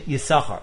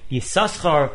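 First: The name is said with one s sound. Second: The name is said with two s sounds. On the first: "with one shin" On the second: "with a double shin"

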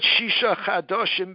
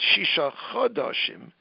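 First: The first vowel of the word sounds like 'a'. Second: The first vowel of the word sounds like 'o'. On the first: It means six new ones. The speaker calls it wrong. "it's not Shisha Chadoshim B'Shemen Hamor. It's not six new ones" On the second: It means six months. The speaker calls it right. "It's Shisha Chadoshim B'Shemen Hamor. It's 6 months"

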